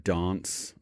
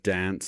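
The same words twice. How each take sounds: First: It is said with an English accent. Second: It is said with an Australian accent.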